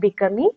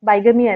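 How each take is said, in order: First: The first syllable sounds like 'big'. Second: The first syllable sounds like 'bye'. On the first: The speaker calls it right. "ഇതിനെ pronounce ചെയ്യേണ്ടത് ബിഗമി എന്നാണ് കേട്ടോ" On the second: The speaker calls it wrong. "ബൈഗമി അല്ല"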